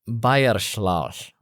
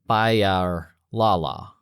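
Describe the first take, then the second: First: The L is breathed out around the tongue. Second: The L is a plain, voiced L sound. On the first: The speaker calls it right. "you breathe around your tongue while touching the tip of your tongue up on the roof of your mouth" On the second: The speaker calls it wrong. "that sounds like Bayar Lala, but that's wrong"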